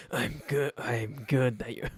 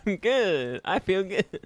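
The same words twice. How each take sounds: First: Said in the usual way. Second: High, loud sing-song I'm good; high goofy I'm good that sounds evil; silly high chirp. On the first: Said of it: "It's like I'm evil". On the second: Real, not acted. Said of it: "I sound so stupid".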